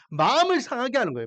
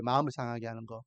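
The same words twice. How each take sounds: First: Said in the usual way. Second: Much lower and softer, almost to himself; quiet echo. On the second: Shown as a demonstration. Preacher quietly repeating his point to the congregation, hushed. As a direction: let the phrase sink into a hushed repeat. Repeated phrase, dropped low.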